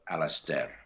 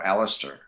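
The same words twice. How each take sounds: First: The name is pronounced in an unusual, heightened way. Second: The name is pronounced in the ordinary way. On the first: It sounds fresh and from another world. "you want it heightened" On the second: It sounds like any familiar name. "I can pronounce this"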